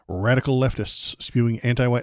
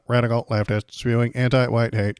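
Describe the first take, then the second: First: It is read in his natural voice. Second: It is read in a robotic voice.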